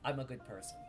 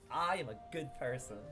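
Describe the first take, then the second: First: It is said plainly, without much feeling. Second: It is said with strong, felt conviction. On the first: The words are only recited. The speaker calls it wrong. "yeah, you said it" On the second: The words are truly lived and felt. The speaker calls it right. "like so"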